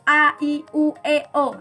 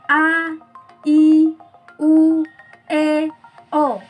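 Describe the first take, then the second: First: The vowels are said quickly in rapid succession. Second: The vowels are said slowly and loudly. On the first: "semakin cepat" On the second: "ini kan pelan"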